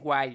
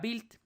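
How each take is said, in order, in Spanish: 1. Se pronuncia al estilo inglés. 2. Se pronuncia de una forma no inglesa. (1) "dirían que es Wild, ¿no? Porque así se pronunciaría" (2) "pero no está en inglés"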